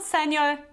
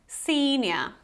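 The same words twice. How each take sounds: First: The first vowel is short. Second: The first vowel is long. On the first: The speaker calls it wrong. "it's not senior" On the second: The speaker calls it right. "you have this long E"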